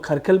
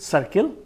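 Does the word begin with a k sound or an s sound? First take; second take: k sound; s sound. First: The c is read as a hard k sound. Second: The c is read as a soft s sound. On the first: The speaker calls it wrong. "अगर मैं इसको सी, सीखा हूं ख पढ़ना, तो मैं इसको खरखिल पढ़ूंगा" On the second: The speaker calls it right. "सी का साउंड सॉफ्ट सी हो जाएगा, लाइक एस"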